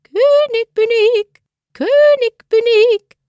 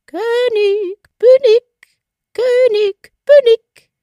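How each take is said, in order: First: Very high, thin piping call, stress on König; tiny bird calling up from a mousehole; fine little voice. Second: Very high, much louder piercing call, bin punched; shrill triumphant little bird shouting down; piercing bird cry. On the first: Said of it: "rief mit seiner feinen Stimme heraus". (feine, sehr hohe Piepsstimme, „König“ betont) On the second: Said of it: "rief unten mit seiner durchdringenden Stimme". (durchdringender, sehr hoher Vogelruf, „bin“ betont) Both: A narrator's reading.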